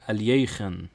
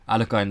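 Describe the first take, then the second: First: The name is said in a non-English way. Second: The name is said in an English way. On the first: "That is the correct pronunciation" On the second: "is very English"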